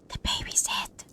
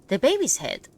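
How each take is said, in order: First: It is said in a whisper. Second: It is said in a normal voice.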